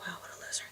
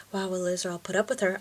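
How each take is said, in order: First: Hushed snide whisper; classmate's mock whisper of "loser"; whispered sneer. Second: Said in the usual way. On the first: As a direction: breathe it out like a mean girl behind her hand. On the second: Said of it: "she's like".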